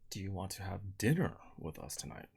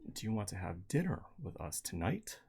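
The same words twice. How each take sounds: First: The voice does not rise at the end. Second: The voice rises at the very end. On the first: "So I emphasize dinner" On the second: "by um, modulating upwards at the very end"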